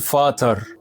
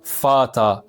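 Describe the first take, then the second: First: The final r is clearly pronounced. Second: The final r is dropped, ending in an open vowel. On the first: The speaker calls it wrong. "ما تقولش فاتر" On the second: The speaker calls it right. "قول فاتا"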